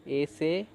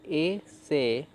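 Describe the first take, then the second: First: Said in the usual way. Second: "ए से" drawn out slowly, a gap between ए and से; syllable by syllable. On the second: Shown as a demonstration. Teacher building the word for learners, "ए से" sounded out slowly. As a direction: split "ए से" into two long, separate sounds. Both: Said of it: "तो स में ए जुड़ गया".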